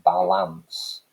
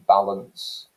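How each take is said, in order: First: The second vowel is a full vowel. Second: The second vowel is a reduced schwa. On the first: This would sound slightly odd to people. "which may strike people as being slightly odd" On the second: This is the usual way to say it. "that second vowel sound, again, it's the schwa sound, an unstressed vowel sound"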